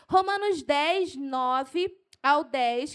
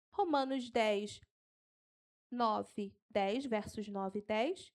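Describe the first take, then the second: First: Raised, excited verse reference; fired-up preacher citing scripture; carried away. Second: Slow, low, softened dictation; unhurried, spaced-out numbers; slow for note-taking. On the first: Real, not acted. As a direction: announce it keyed up and loud. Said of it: "eu me empolgo". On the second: Shown as a demonstration. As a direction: read out the reference slowly with pauses. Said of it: "Eu vou falar devagar".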